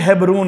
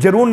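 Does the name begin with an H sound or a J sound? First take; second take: H sound; J sound. First: The name begins with an H sound. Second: The name begins with a J sound. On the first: The speaker calls it right. "हेब्रोन है" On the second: The speaker calls it wrong. "वो गलत बोलते हैं। जरून नहीं"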